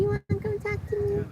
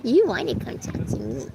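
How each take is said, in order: First: Very high, soft cooing "You wanna come talk to me?". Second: Lightly raised sing-song coaxing "You wanna come talk to me". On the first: To her pet bird, asking again in high cooing baby talk. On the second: Coaxing her pet bird to come over, light baby talk. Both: Real, not acted.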